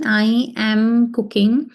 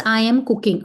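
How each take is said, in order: First: "I am cooking" said slowly, word by word; slow dictation. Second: Said in the usual way. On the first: Shown as a demonstration. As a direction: spell out "I am cooking" slowly for the class. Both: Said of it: "so let's translate this sentence".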